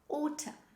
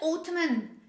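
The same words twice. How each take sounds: First: The final N sound is silent. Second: The final N sound is pronounced. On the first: The speaker calls it right. "we don't say the letter N when we say them" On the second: The speaker calls it wrong. "We don't say autumn"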